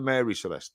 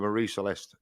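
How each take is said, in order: First: The first name is pronounced as Mary. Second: The first name is pronounced as Marie. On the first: The speaker calls it wrong. "not the Mary Celeste. That's an American doing that" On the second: The speaker calls it right. "The proper name is the Marie Celeste"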